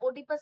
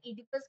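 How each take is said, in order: First: The word begins with an 'o' sound. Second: The word begins with an 'e' sound. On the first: The speaker calls it wrong. "ओडिपस मत बोलना" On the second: The speaker calls it right. "ओ silent हो"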